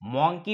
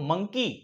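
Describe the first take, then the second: First: The first vowel sounds like 'aw'. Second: The first vowel sounds like 'uh'. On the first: The speaker calls it wrong. "मॉन्की म्हणतो का? नाही" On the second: The speaker calls it right. "तर आपण काय म्हणतो?"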